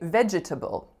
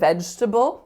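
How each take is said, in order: First: It uses a rarer, dictionary-listed variant pronunciation. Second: It uses the everyday pronunciation of the word. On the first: People do not say it this way in natural speech. The speaker calls it wrong. "another way to say the word was to say vegetable" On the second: This is how people say it in natural speech. The speaker calls it right. "which the dictionary did say was one way to say the word"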